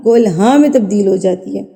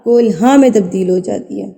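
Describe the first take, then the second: No difference in how they are said.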